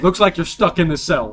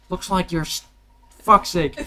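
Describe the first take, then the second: First: Louder Australian take, a laugh in it; Australian guard voice. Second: Botched Australian voice. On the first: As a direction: deliver the line as the Aussie guard. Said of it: "Did he actually just say". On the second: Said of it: "I'm spacing on the voice". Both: Acted.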